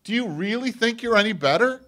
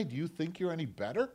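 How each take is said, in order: First: Loud, much higher rebuke; forceful challenge. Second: Said in the usual way. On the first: Acted. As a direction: hammer the question home. Jesus challenging, repeated louder.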